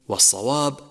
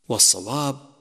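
The two takes are said the same way.

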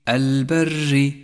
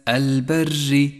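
The two takes are said the same way.

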